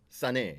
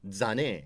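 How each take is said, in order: First: The name begins with a hissing s sound. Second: The name begins with a buzzing z sound. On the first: This is how northern speakers say it. "사람들은 주로 싸네 이렇게 얘기를 하고" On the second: This is how southern speakers say it. "남쪽에 내려가면 자네 이렇게 얘기를 하고"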